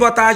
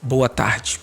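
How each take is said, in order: First: It is said quickly, running straight on. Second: It is said slowly and drawn out. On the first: "você começa sem perceber acelerar sua fala" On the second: "E quando eu digo mais devagar, não é assim"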